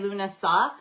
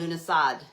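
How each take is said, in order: First: The word ends without a D sound. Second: The word ends with a D sound. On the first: "Some pe- people say Lunasa" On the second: "some people pronounce the D at the end"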